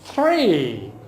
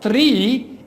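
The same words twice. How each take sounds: First: It starts with a soft th sound. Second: It starts with a stop like the Urdu t. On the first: The speaker calls it right. "it is three" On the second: The speaker calls it wrong. "not three"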